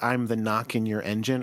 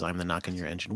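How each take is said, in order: First: Said in the usual way. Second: Low, quieter mock monster. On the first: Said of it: "I think she says something about, like". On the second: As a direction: growl it lightly as the monster. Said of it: "or maybe the monster says".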